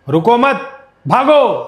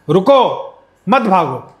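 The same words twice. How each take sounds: First: The pause comes after the second word. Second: The pause comes after the first word.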